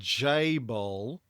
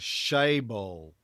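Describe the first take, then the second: First: The word begins with a 'j' sound. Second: The word begins with an 'sh' sound. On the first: The speaker calls it wrong. "That's how they said most English speakers pronounce it" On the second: The speaker calls it right. "but it should be more like a"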